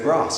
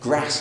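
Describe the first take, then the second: First: The word is said in a southern accent. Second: The word is said in a northern accent. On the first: "instead of grass" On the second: "You've got a northern accent. You say grass"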